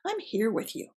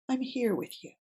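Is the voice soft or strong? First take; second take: strong; soft. First: It is said with a strong, firm voice. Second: It is said softly and gently.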